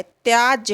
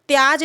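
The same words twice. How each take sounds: First: त्याज drawn out slowly with a jy ending, tyaajya; correct form. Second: त्याज ending on a bare j, no y; wrong form. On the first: Teacher giving students the proper word, correct form. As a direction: close त्याज on a clear j-y cluster. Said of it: "त्याज होता है". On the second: Teacher showing students the faulty word, wrong form. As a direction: say त्याज without the final y sound. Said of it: "त्याज नहीं होता है". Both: Shown as a demonstration.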